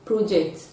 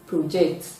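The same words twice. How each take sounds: First: The stress is on the first syllable. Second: The stress is on the second syllable. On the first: It is used as a noun. "The noun form of P R O J E C T will be project" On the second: It is used as a verb. "while the verb form will be project"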